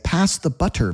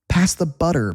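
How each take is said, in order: First: The T in butter is a clear T. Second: The T in butter sounds like a D. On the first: The speaker calls it wrong. "We don't say, ... Nobody talks like that" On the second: The speaker calls it right. "That T turns into a D"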